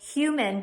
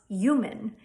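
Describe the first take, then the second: First: It starts with an H sound. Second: It starts directly with a Y sound.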